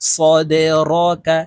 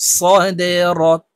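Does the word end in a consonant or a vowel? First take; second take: vowel; consonant. First: The final k is followed by a vowel. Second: The word ends sharply on the k sound. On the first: "কাফ জবর কা" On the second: "এই কাফকে ওয়াকফের ক্ষেত্রে সাকিন করে ফেলবো"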